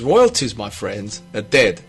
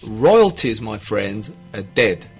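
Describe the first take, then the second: First: It is spoken at an ordinary speaking pace. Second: It is spoken slowly and deliberately.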